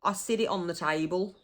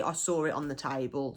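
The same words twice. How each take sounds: First: "sit" with a d sound, like "sid", for saw. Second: Said in the usual way. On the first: Shown as a demonstration. Showing the dialect word for saw, "sit" said as "sid". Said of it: "Sid means saw". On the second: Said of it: "would be".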